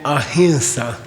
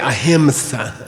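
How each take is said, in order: First: The vowel before s is nasalized, French-like. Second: A full m consonant comes before the s. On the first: The speaker calls it right. "the nasal sound ... un petit croissant, like that" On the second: The speaker calls it wrong. "You don't say"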